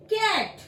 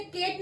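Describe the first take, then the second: First: CAT as कैट, open 'ai' vowel; correct pronunciation. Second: CAT misread as केट, long 'ay' vowel; wrong pronunciation. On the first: Teacher models कैट for students, careful pronunciation. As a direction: say कैट with a wide short-a, not केट. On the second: Teacher shows students the mistake, mispronounced केट. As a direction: say केट, rhyming with gate. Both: Shown as a demonstration. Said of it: "हम इसे केट नहीं बोलते हैं".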